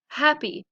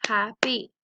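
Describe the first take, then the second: First: Said in the usual way. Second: "happy" in two beats, HAP, then PY; syllable-by-syllable "happy"; split into syllables. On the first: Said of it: "So let's practice them". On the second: Shown as a demonstration. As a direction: break "happy" between its syllables. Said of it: "Two syllables".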